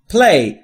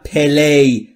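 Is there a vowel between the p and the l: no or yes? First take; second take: no; yes. First: The p and l are joined with no vowel. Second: A short vowel is inserted between p and l. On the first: The speaker calls it right. "play بین p و l صدایی وجود نداره" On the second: The speaker calls it wrong. "نگفتم play"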